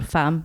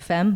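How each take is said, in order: First: It is pronounced the French way. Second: It is pronounced the English way. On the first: The speaker calls it right. "that is, woman in French" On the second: The speaker calls it wrong. "All the English people would pronounce it femme"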